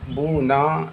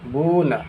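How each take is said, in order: First: The final vowel is drawn out long. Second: The final vowel is short and quick. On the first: The speaker calls it wrong. "इस तरह से नहीं अदा करना है" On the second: The speaker calls it right. "बल्कि जल्दी अदा करना है"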